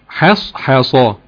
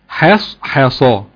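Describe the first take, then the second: No difference in how they are said.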